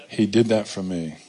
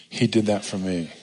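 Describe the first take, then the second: No difference in how they are said.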